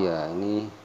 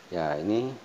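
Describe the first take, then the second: Both takes have the same delivery.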